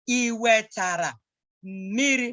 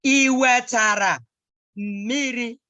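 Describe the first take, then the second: First: Said in the usual way. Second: Iwetara slow and louder, then miri; slow model. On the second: Shown as a demonstration. Teacher modelling Iwetara miri for the child. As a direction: stress Iwetara, slow and full.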